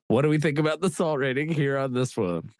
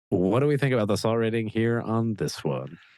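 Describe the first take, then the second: First: It is said with excited, high energy. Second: It is said with calm, lower energy.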